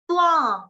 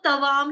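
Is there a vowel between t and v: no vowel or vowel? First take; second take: no vowel; vowel. First: The t joins the v with no vowel. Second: A vowel is heard between t and v. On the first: The speaker calls it right. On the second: The speaker calls it wrong.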